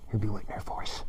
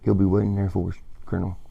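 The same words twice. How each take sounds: First: Repeated line, quieter. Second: Said in the usual way. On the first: Retold or imitated. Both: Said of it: "He's like".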